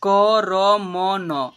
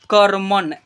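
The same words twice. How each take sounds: First: "करमन" very slow as क, र, म, न; letter by letter. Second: Said in the usual way. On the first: Shown as a demonstration. Teacher sounding out "करमन" for learners, letter by letter. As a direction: stretch "करमन" into four syllables, each vowel held. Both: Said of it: "ऐसे हुआ".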